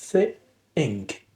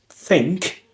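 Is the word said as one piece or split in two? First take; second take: split; one piece. First: The word is split into two parts with a pause. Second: The word is said in one unbroken piece.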